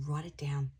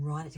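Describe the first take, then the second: First: Urgent whisper to the viewer. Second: Said in the usual way. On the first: Real, not acted. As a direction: whisper it like a secret instruction. Urging viewer to note messages.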